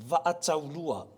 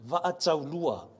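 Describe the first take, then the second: Both takes have the same delivery.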